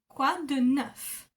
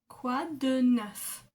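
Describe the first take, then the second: Both takes have the same delivery.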